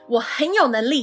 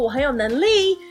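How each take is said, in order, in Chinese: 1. 句尾音调坚定地下降。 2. 句尾音调上升。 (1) "跟我们一起喊" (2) "不能尾调上扬，不能说我很有能力"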